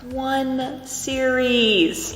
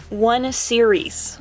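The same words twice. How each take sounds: First: ONE SERIES stretched out very slowly and higher; emphatic repeat. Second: Said in the usual way. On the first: Real, not acted. Hammering home to viewers that it's early, "one series" drawn out emphatically. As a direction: draw out both words, "one series", for emphasis.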